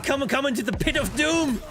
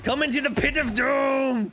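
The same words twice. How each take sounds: First: Higher, louder hammed-up villain taunt; mock-villain invite into the pit; gleeful taunt. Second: Higher, louder full mock-villain shout; hammed-up bellow to the enemy; shouted taunt. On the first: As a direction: lure him in with glee. Taunting the enemy in game. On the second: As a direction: yell it to lure him in.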